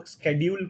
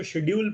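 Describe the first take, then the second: First: शेड्यूल starting with sk, sked-yool; sk pronunciation. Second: शेड्यूल starting with sh, shed-yool; sh pronunciation. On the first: Teacher showing students the other accepted way. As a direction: say शेड्यूल the American way with a hard sk. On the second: Teacher showing students one accepted way. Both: Shown as a demonstration. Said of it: "दोनों pronunciation सही है".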